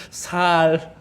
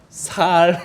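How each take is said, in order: Both takes have the same delivery.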